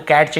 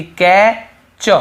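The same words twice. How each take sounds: First: "कैच" as "kat-ch", T audible before ch; wrongly sounded T. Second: "कै च" split in two, "ka... chuh", no T; silent T. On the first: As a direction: put a T into "कैच". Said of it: "कैच नहीं पढ़ रहे हैं". ("कैच" में टी की आवाज़ के साथ) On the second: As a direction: break "कै च" with a pause, leaving out the T. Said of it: "यहाँ पर भी टी को नहीं". ("कै च" बिना टी के, तोड़कर) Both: Shown as a demonstration.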